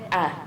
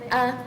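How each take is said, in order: First: The vowel is said on a low tone. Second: The vowel is said on a high tone. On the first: "si je mets un ton bas sur le A" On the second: "je mets un accent ou bien un ton haut sur A"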